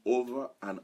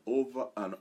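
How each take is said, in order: Both takes have the same delivery.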